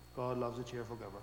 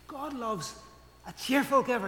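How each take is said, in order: First: It is said glumly, with a frown. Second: It is said cheerfully, with a smile.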